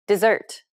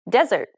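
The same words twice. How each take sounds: First: "Dessert" with a weak first syllable, strong second; stress on second syllable. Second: "Desert" with a strong first syllable, weak second; stress on first syllable. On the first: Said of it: "the second syllable is stressed". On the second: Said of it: "the first syllable is stressed". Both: Shown as a demonstration.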